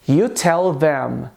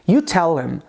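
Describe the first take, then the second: First: The words are said separately and clearly. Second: The th sound is dropped, linking tell and them. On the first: "Eu posso dizer" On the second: "apagar o som de T H presente em them e unir o som da letra L com am"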